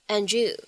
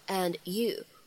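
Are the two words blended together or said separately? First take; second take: blended; separate. First: The two words are blended together quickly. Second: The two words are said separately. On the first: "咱们可以选择做一个音的同化的处理，读快了以后呢，听起来会很像" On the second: "分开读成"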